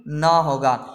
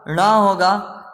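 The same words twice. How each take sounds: First: ना as plain dental "na", drawn out; slow, simple n in ना; wrong nasal letter. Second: ना as retroflex "ṇa"; correct nasal letter. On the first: Teacher ruling out the wrong letter, ना as dental na. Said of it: "ना कि". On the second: Teacher naming the right letter, ना as retroflex ṇa. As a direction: curl the tongue back hard for ना. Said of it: "इसका सही क्या होगा". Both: Shown as a demonstration.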